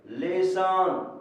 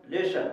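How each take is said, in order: First: "लेसन" very slowly, both syllables stretched, with a clear s; drawn-out pronunciation. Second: Said in the usual way. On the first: Shown as a demonstration. Teacher showing the vowel sound in lesson, drawn-out pronunciation. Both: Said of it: "यहाँ ए की ध्वनि आ रही है".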